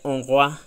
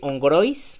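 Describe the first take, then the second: First: The final s is dropped and silent. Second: The final s is pronounced aloud. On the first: This is how it is said in French. The speaker calls it right. "me estoy comiendo la S" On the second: This is how it would be read in Spanish. The speaker calls it wrong. "así se pronuncia en español"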